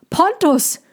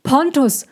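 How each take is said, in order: First: Anguished shout; desperate call. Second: Desperate cry; desperate call. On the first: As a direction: cry out after him as he leaves. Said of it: "rief der Zirkusdirektor ihn". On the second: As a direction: call out in helpless despair. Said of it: "Er klang, als ob er im Wasser war". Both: Acted.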